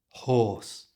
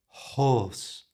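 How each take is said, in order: Both takes have the same delivery.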